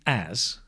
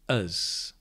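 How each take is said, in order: First: The word has a full, stressed vowel. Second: The word has a weak, reduced vowel.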